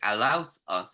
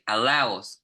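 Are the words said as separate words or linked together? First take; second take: separate; linked. First: The words are said as two separate words. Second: The words are run together as one word. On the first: The speaker calls it wrong. "we don't say allows us" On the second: The speaker calls it right. "We say allows. We get it into one"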